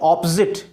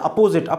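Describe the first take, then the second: First: The first vowel is an open 'aw' sound. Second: The first vowel is a short 'uh' sound. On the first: The speaker calls it right. "क्या बोलेंगे? ऑपोजिट।" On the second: The speaker calls it wrong. "जबकि कई लोग क्या बोलते हैं? अपोजिट।"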